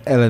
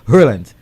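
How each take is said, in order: First: The name starts with a vowel, no H sound. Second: The name starts with a clear H sound. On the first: The speaker calls it wrong. "I said Ellen" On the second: The speaker calls it right. "you actually pronounce the H"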